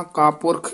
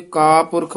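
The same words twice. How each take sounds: First: "ਕਾਪੁਰਖ" run together without a break; joined as one word. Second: "ਕਾਪੁਰਖ" split into ਕਾ and ਪੁਰਖ; mistakenly split word. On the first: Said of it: "ਇਕੱਠਾ ਹੀ ਉਚਾਰਨ ਕਰਨਾ". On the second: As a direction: break after the first syllable of "ਕਾਪੁਰਖ". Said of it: "ਵੱਖਰਾ ਵੱਖਰਾ ਨਹੀਂ ਕਰਨਾ". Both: Shown as a demonstration.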